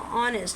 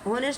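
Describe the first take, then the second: First: The word begins with a vowel, h silent. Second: The word begins with a sounded h. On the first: The speaker calls it right. "एच हमारा क्या होता है? Silent होता है।" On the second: The speaker calls it wrong. "ऑनेस्ट नहीं पढ़ेंगे इसको"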